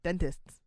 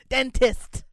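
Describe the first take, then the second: First: The word ends with an extra s sound. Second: The word ends without an extra s sound. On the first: The speaker calls it wrong. "there's an extra S there" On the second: The speaker calls it right. "She did it right that time"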